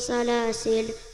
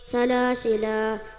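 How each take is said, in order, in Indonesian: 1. Kata ini berakhir dengan konsonan. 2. Kata ini berakhir dengan vokal panjang. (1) "wakaf sukun berbunyi" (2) "wakaf panjang berbunyi"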